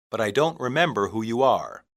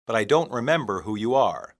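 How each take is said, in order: Both takes have the same delivery.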